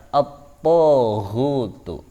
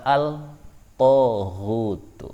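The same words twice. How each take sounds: First: At-taghutu with the lam merged into a doubled t; assimilated al. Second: Al-taghutu with a clearly sounded l; contrasted wrong reading; wrong clear lam. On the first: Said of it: "maka dibaca". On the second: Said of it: "Tidak boleh dibaca". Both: Shown as a demonstration.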